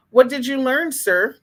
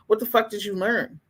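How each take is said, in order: First: Mocking challenge. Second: Said in the usual way. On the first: Mocking commenters who praised video.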